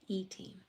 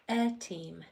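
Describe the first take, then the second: First: The first vowel is a long ee sound. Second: The first vowel is a short eh sound. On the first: "That first E would have had to have changed to a long E sound" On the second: "this first E is going to say eh"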